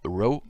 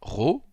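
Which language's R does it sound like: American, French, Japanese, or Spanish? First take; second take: American; French. First: The R sounds like an American R. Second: The R sounds like a French R. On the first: "en américain" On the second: "comme en français"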